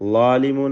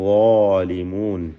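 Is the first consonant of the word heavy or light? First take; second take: light; heavy. First: The first consonant is light, like an L. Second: The first consonant is heavy and thickened. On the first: The speaker calls it wrong. "ള ഉച്ചരിക്കുമ്പോൾ ലാ ലാ എന്ന് പറയരുത്, ളാലിമൂൻ എന്ന് പറയരുത്" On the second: The speaker calls it right. "മറിച്ച് ളാലിമൂൻ"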